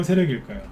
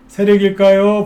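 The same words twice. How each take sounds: First: Said in the usual way. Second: 세력일까요 thrown out louder and higher, rising; louder teasing question. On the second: Acted. Host pressing viewers with a loud, higher 세력일까요. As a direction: lean in hard on 세력일까요 as a provocation.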